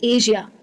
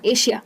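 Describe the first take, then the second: First: The middle consonant is a zh sound. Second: The middle consonant is a sh sound. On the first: The speaker calls it right. "इसको कहना चाहिए एशिया। सही pronunciation है" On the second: The speaker calls it wrong. "ये word को कई लोग श में कहते हैं, गलत प्रोनाउंसिएशन है"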